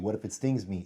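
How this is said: The question sounds calm and curious. The asker is merely wondering. "I was asking curiously"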